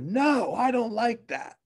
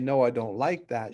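First: It is said in an upset voice. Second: It is said in a calm voice.

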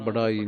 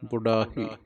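First: No h sound comes before the final vowel. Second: An h sound comes before the final vowel. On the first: The speaker calls it wrong. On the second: The speaker calls it right.

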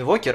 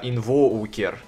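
First: The vowel after 'inv' is a plain o. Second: The vowel after 'inv' glides from o to u. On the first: "он говорит не инвокер" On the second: "а инвоукер, со звуком У"

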